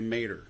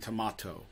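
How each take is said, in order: First: It is said in a Southern US accent. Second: It is said in a British accent. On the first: "you go down to like Oklahoma and Texas, instead of tomato, they say mater" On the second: "you go over to England and they're saying tomato"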